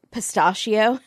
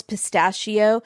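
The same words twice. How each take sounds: First: Second vowel of pistachio said Katie's way; alternate pronunciation. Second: Said in the usual way. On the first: Retold or imitated. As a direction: say pistachio the way a co-host would. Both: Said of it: "as Katie might want to say it".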